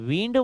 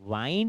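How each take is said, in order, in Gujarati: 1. સ્વર ટૂંકો છે, 'bit' માં જેવો. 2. સ્વર લાંબો છે, 'bite' માં જેવો. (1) "તમે વિન્ડ વાંચો છો તો એનો અર્થ થશે પવન" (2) "તમે વાઇન્ડ વાંચો છો"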